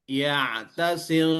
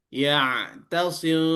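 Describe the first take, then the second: No difference in how they are said.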